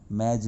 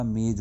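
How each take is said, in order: First: "मेज" with an open ai vowel, maij; गलत उच्चारण. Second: "मेज" with a close e vowel, mej; सही उच्चारण. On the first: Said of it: "मेज नहीं होता". ("मेज" को मैज जैसा बोलें) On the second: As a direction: say "मेज" as mayj. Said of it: "मेज होता है". ("मेज" में ए की सही ध्वनि) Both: Shown as a demonstration.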